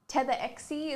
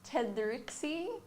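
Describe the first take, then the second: First: The name is said as Tetherexie. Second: The name is said as Tedrixie. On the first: This is the most common way others say it. "Tetherexie is probably the most common one" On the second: This is how other people say it. "we get a lot of different ones"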